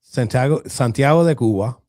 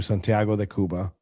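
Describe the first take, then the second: First: Santiago de Cuba said in Spanish, louder; Spanish pronunciation. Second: Santiago said the gringo way; anglicized Spanish place name; American accent Spanish. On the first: Shown as a demonstration. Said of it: "I said that like a gringo". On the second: Real, not acted. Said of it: "damn, I said that like a gringo".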